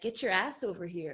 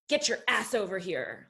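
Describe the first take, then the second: First: It is said in a sexy, playful tone. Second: It is said in a stern, strict tone. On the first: It is a flirtatious invitation. "it's like sexy and playful" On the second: It is a firm command. "like stern"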